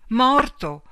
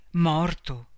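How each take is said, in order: First: Much higher, much louder outburst; the truth hits her all at once; shocked cry. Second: First shocked word, held back; stunned disbelief. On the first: Shock repeats news on phone. (grido sconvolto, molto più alto e forte) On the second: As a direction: caught off guard, not yet believing. Phone news of a death. (stupore incredulo, trattenuto) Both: A narrator's reading.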